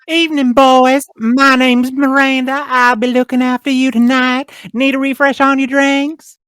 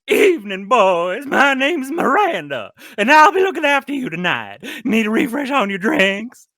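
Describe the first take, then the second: First: It is a genteel Southern belle voice. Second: It is a much sillier, exaggerated voice.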